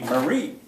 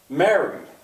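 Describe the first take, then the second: First: The stress is on the second syllable. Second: The stress is on the first syllable. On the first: The speaker calls it wrong. "Otherwise it would be" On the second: The speaker calls it right. "strong weak"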